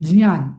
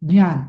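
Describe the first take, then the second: The two takes are said the same way.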